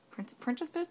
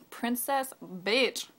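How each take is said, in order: First: Princess Bitch said higher and softer, rising as a question. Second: "Princess Bitch" drawn out very slowly, word by word; slow emphasis. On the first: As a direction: trip on "Prin-", then ask "Princess Bitch" tentatively. Tries her sign-off as question. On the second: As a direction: stretch out both words of "Princess Bitch". Repeats her sign-off emphatically. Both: Real, not acted.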